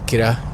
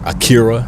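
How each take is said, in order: First: The name is said in a non-American way. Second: The name is said the American way.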